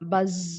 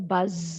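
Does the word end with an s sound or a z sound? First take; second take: z; z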